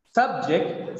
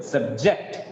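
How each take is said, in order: First: SUBject, strong Sub; stress on first syllable. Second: "subject" as sub-JECT, rising; weak low sub, strong JECT in "subject"; stress on second syllable. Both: Shown as a demonstration. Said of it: "change in the stress pattern".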